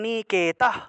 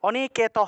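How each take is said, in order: First: The final sound is pronounced only halfway. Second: The final sound is pronounced fully. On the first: The speaker calls it right. "বলতে হবে অনিকেতঃ, অনিকেতঃ এভাবে বলতে হবে" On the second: The speaker calls it wrong. "এইভাবে বললে হবে না"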